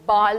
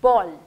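First: The vowel is an open 'ah' sound. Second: The vowel is a rounded 'aw' sound. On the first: The speaker calls it wrong. "लोग ओ ए इसको बाल भी pronounce करते हैं, but that is a wrong pronunciation" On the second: The speaker calls it right. "ब sound, बॉल"

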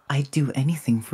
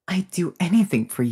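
First: It sounds innocent and flat, with a menacing edge. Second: It sounds wilder and more openly unhinged. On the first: "trying to sound innocent, but in a fucked up way" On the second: "Let's see if I can go more unhinged"

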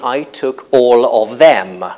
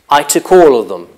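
First: The word 'them' is said in its full form. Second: The word 'them' is reduced to a weak form. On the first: The speaker calls it wrong. "I would never say, ... which is probably what most Italians would say" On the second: The speaker calls it right. "I would say"

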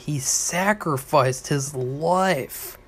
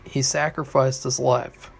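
First: The last three words are all stressed. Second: No word is stressed; all are said evenly. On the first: The focus is on the whole act of giving his life. "That would be emphasizing the three words, sacrificed his life" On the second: It is a plain statement, like reading a book. "you can say it all at once, ... that's like reading a book"

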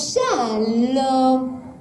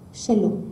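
First: The greeting is said loudly and brightly. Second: The greeting is said softly and weakly. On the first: The greeting is answered in an ordinary cheerful way. The speaker calls it wrong. "לא" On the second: The greeting is answered in a subdued way, as in mourning. The speaker calls it right. "לענות בשפה רפה"

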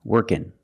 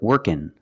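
First: The word ends in an 'n' sound. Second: The same.

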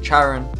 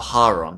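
First: The name is said in a British-style pronunciation. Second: The name is said in a Greek-style pronunciation. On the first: "I am going to pronounce it the Hand of Charon" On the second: "in Greek, it's the Hand of Charon"

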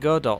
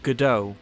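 First: The name is said in a plain English way. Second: The name is said in a French-sounding way. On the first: This is the speaker's own preferred pronunciation. The speaker calls it right. "I pronounce it Godot" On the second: This is the pronunciation the speaker rejects as pretentious. The speaker calls it wrong. "not Godot ... I am neither French nor a pretentious hipster neckbeard"

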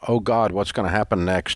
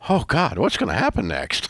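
First: It is said with worried dread. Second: It is said with eager excitement.

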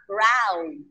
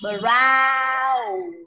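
First: The word is said quickly and compactly. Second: The word is said slowly and drawn out. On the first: "Đọc nhanh sẽ là brown" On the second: "nếu chậm nó sẽ là brown"

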